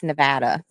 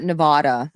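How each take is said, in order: First: Nevada with a short "a" as in "cat"; local Nevada. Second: Nevada with an "ah" middle, nuh-VAH-duh; outsider's Nevada. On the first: Vegas regular correcting herself, Nevada as nuh-VAD-uh. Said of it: "it's Nevada". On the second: Vegas regular showing the mistaken way, Nevada as nuh-VAH-duh. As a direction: say Nevada the outsider way, rhyming with "nada". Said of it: "I learned that it's not Nevada". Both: Shown as a demonstration.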